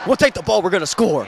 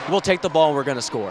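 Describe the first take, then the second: First: It is said in an imitated, put-on voice. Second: It is said in a plain, normal voice. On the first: The speaker calls it right. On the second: The speaker calls it wrong.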